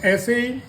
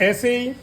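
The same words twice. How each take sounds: No difference in how they are said.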